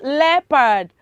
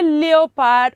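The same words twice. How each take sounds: First: The O is silent. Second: The O is sounded. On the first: The speaker calls it right. "It is leopard" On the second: The speaker calls it wrong. "Uh-oh, it is wrong"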